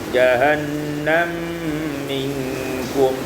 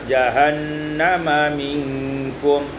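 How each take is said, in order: First: The two mim sounds merge into one. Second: A vowel separates the two mim sounds.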